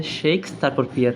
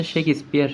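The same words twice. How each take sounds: First: শেক্স তারপর পিয়ার, the s closing the first syllable; mistaken syllable split. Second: শেক্সপিয়ার as "shek-ispiar", the s opening the second part; corrected syllable split. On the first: Teacher admitting how they used to say it, mistaken split. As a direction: split it wrongly as "sheiks", then "piar". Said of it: "আমি এতদিন ধরেও জানতাম যে". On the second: Teacher showing what it really is, corrected split. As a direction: break after "shek", then join s to "piar". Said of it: "এটা আসলে হচ্ছে". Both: Shown as a demonstration.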